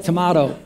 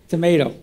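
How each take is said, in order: First: "tomato" said with a broad ah, to-MAH-to; tomahto. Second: "Tomato." said with an ay, to-MAY-to; tomayto. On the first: Preacher asks the congregation who says it to-mah-to, with a broad ah. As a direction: give "tomato" the British to-mah-to sound. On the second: Preacher answers with the everyday American to-may-to, with an ay. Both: Shown as a demonstration. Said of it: "How many call it a tomato?".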